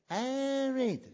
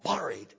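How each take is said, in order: First: The R is not rolled, English accent. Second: The R is rolled in a Scottish accent. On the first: The speaker calls it right. "it's buried" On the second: The speaker calls it wrong. "it's not buried"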